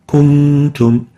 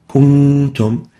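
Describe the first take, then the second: Both takes have the same delivery.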